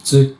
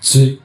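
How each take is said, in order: No difference in how they are said.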